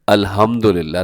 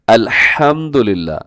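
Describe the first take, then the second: First: The h is a plain, soft breath sound. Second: The h is a harsh, throaty sound. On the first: Dying belongs only to God. The speaker calls it wrong. "गलत कैसे बाल पढ़ दें" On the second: All praise belongs to God. The speaker calls it right. "सही क्या है"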